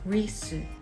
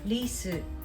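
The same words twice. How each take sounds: First: The r is a heavy English-style r. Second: The r is a light Japanese tap. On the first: The speaker calls it wrong. "not risu" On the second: The speaker calls it right. "this is risu"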